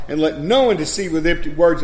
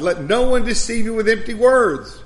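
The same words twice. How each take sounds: First: Said in the usual way. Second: "Let no one deceive you with empty words" pitched higher, each word weighed; underlined emphasis. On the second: Shown as a demonstration. Preacher repeats the key verse, "Let no one deceive you with empty words" raised for emphasis. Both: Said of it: "that's the part that I have you underlined".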